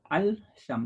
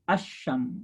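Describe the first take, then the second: First: The L sound is pronounced separately. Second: The L merges into the following sh sound. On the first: The speaker calls it wrong. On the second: The speaker calls it right. "alif lam itu kalau dia sama samsiah itu dia nyambung dia"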